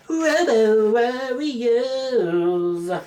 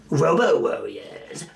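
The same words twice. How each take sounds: First: High, very slow drawn-out movie-trailer announcement; dramatic title announcer. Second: Said in the usual way. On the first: Pretend. Vlogger hyping his favourite robot movie, drawn-out announcer call. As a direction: stretch the title like an epic announcer.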